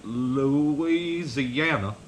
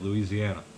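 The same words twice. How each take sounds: First: Louisiana said slowly, syllable by syllable; a slow, laboured Louisiana; struggling Louisiana. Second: Louisiana said plainly, northern style. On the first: Retold or imitated. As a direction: drag "Louisiana." out as if it hurts to say it. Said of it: "he had to, like, struggle to say it". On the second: Shown as a demonstration. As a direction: say "Louisiana." the quick, flat northern way. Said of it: "that's how we say it".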